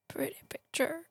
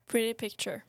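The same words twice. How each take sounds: First: It is acted out with the character's intonation. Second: It is read out flatly, without acting.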